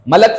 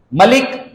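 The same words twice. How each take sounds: First: मलक with short a vowels; मलक for angel, clearly sounded; vowel contrast. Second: मलिक with i in the second syllable; मलिक for king, clearly sounded; vowel contrast. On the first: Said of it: "मलक फरिश्ते को कहते हैं". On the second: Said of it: "मलिक बादशाह को कहते हैं". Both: Shown as a demonstration.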